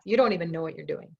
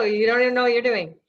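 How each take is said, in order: First: Said in the usual way. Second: Teasing. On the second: Shown as a demonstration. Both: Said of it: "I'm kidding".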